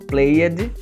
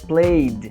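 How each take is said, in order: First: The word ends with an extra ed syllable. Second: The word ends in a short d sound. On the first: The speaker calls it wrong. "não existe esse, essa pronúncia" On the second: The speaker calls it right. "é um D curto"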